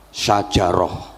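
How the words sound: It has Arabic sounds, ending in -roh. This is the original word.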